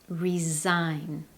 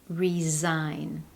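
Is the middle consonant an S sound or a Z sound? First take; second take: Z sound; Z sound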